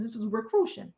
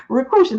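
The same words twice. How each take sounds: First: Said in the usual way. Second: Recruition said louder, one sharp punch; punched word. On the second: Shown as a demonstration. Joking about a made-up church word, loud Recruition. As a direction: hit Recruition hard and loud. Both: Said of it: "I made that word up".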